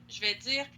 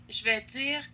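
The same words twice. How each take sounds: No difference in how they are said.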